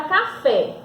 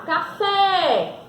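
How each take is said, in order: First: Said in the usual way. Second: "café" with the last syllable FÉ drawn out; stress on FÉ. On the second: Shown as a demonstration. Teacher showing pupils the tonic syllable, stressing FÉ in "café". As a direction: lean hard and long on the FÉ in "café". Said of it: "eu falei com mais intensidade a sílaba fé".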